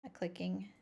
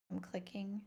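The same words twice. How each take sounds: First: Said in the usual way. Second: Breathy whisper, no voice. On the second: Real, not acted. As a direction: whisper it to yourself. Repeats same words, then whispered.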